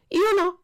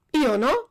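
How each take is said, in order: First: "Io no" blurted much higher and louder, frightened; a scared puppet squeaking "Io no"; breathless panicked "Io no", first take; stammered denial. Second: "Io no" again, louder and higher, insistent and scared; cling to "Io no" against the policeman; frightened repeat of "Io no", second take; repeated denial. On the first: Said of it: "balbettò il burattino". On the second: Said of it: "ripeté Pinocchio". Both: A narrator's reading.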